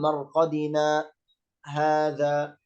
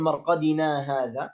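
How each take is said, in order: First: There is a brief stop without breath between words. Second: The words run together without any stop.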